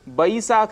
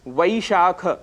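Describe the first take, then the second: First: The word begins with a 'b' sound. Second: The word begins with a 'v' sound. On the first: The speaker calls it wrong. "जिसे बैसाख कहते हैं" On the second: The speaker calls it right. "ऐसे ही शब्द है वैशाख"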